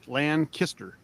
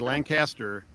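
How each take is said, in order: First: The second syllable is reduced, like 'kister'. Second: The second syllable is said fully, like 'caster'. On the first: The speaker is from the area. The speaker calls it right. "Got to say it right, Lancaster. It's like L A N Kister" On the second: The speaker is not from the area. The speaker calls it wrong. "If you say Lancaster, you're not a local"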